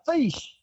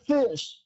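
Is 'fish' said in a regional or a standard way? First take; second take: regional; standard. First: The word is said in a regional dialect way. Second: The word is said in the ordinary standard way. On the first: The speaker calls it right. "She said fish. ... that's the right way to pronounce the word fish" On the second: The speaker calls it wrong. "she didn't say fish"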